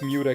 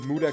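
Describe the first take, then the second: First: Muda is said like the end of Bermuda. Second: Muda is said like the JoJo catchphrase. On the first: The speaker calls it right. "it's actually pronounced Muda Kingdom ... it comes from uh, the word Bermuda" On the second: The speaker calls it wrong. "I see a lot of people pronouncing it Muda Kingdom and making JoJo references"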